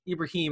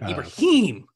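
First: The ending is pronounced lightly and casually. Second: The ending is pronounced with heavy, forceful emphasis. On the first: This is how the name's owner says it. The speaker calls it right. "Ibrahim is fine" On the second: Others overdo the name's original pronunciation. The speaker calls it wrong. "they try to like really put it in"

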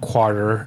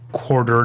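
First: It is said in a St. Louis accent. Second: It is said in a general American accent. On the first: "not quarter" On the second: "I say quarter"

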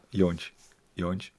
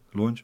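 First: The name begins with a Y sound. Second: The name begins with an L sound. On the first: The speaker calls it right. "twee L's spreek je uit als een J" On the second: The speaker calls it wrong. "want of de L spreek je niet uit, toch?"

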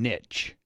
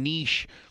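First: The word is said with a plain English sound. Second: The word is said with a French-style sound. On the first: This is the long-standing way to say it. "for years, it's been niche" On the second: This is a newer way used to sound fancy. "only became niche, like, the last, you know, decade when people are trying to get fucking fancy on it"

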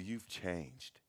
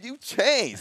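First: The voice sounds disapproving and negative. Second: The voice sounds impressed and admiring. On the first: The change is seen as a bad thing. "And we only say that in a negative way. It's always with a negative tone" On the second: The change is seen as a good thing. "Like, what a change. What an evolution, man"

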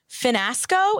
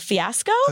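First: An extra n sound follows the first vowel. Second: No n sound follows the first vowel. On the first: The speaker calls it wrong. "Hannah Ann said, Finasco instead of fiasco" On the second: The speaker calls it right. "instead of fiasco"

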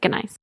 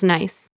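First: It is pronounced the German way. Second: It is pronounced the English way. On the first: "In German, they use the same word, but they pronounce it gneiss" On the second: "In English, the word is nice"

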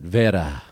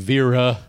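First: The name is said with a Portuguese accent. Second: The name is said with an American accent.

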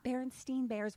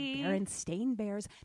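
First: The name ends with a 'stein' sound. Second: The name ends with a 'stain' sound. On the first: This follows a spelling remembered as different. "not Berenstain Bears, which is how you say it because it was spelled differently in our previous dimension" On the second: This follows the spelling of the name as printed. "you sound things out the way that they're spelled, and therefore you would have said Berenstain Bears"

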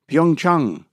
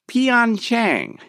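First: The name is said in a Korean-style way. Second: The name is said in an Americanized way. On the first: This is the city's actual name. The speaker calls it right. "It's what it's called" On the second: This is how television announcers say it. The speaker calls it wrong. "not Pyeongchang"

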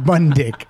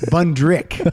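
First: No r sound follows the n sound. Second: An r sound follows the n sound. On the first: The speaker calls it wrong. "It's not Bundick" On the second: The speaker calls it right. "It's John Rabbit. Bundrick"

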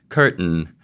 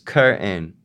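First: The t is released through the nose. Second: The t is replaced by a glottal stop. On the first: "What is typically done in pronunciation of English is something that's called a nasal plosion" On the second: "some Rhode Islanders, not all, glottalize the nasal plosion"

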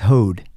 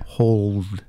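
First: The L sound is dropped from the word. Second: The L sound is clearly pronounced. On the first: The speaker calls it wrong. "it can come out as hoed" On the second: The speaker calls it right. "I really have to"

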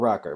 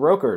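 First: The first vowel is a short 'o' sound. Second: The first vowel is a long 'oh' sound. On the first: The speaker calls it right. "it was the Motorola Rocker" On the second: The speaker calls it wrong. "in my head, for a decade now, it was always the Roker"

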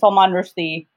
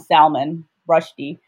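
First: The name is said in a non-American way. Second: The name is said in an American way.

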